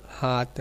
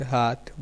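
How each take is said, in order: First: हाथ said "haat", with plain t; deaspirated Braj form. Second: Said in the usual way. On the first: Shown as a demonstration. Lecturer illustrating Braj speech, हाथ deaspirated to "haat". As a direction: drop the final breath in हाथ. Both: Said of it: "अल्प प्रयोग कर देने की प्रवृत्ति".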